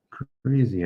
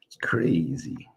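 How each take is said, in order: First: Said in the usual way. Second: Whisper. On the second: Real, not acted. Muttered aside after praising actor.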